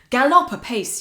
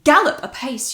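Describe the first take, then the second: First: The stress falls on the second syllable of gallop. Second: The stress falls hard on the first syllable of gallop. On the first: The speaker calls it wrong. "I'd literally have to say a word in a really weird way" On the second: The speaker calls it right. "he wants me to hit it really hard at the beginning of that line"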